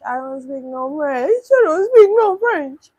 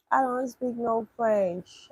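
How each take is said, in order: First: Rising yell. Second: Slow, drawn-out protest; slow refusal. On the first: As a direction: build from a raised voice to a high, loud yell. Escalating protest at French message. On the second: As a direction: spell it out slowly, at normal volume. First take before escalating repeats. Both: Real, not acted.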